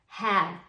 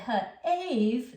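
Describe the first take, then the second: First: The vowel is short, as in cat. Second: The vowel is long, like the letter name. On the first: The speaker calls it right. "he was strong enough" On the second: The speaker calls it wrong. "that doesn't sound right"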